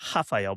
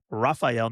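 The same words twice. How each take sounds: First: The name is said with the Portuguese pronunciation. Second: The name is said without the Portuguese pronunciation. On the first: The speaker calls it wrong. "not Rafael... the Portuguese pronunciation" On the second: The speaker calls it right. "It is Rafael"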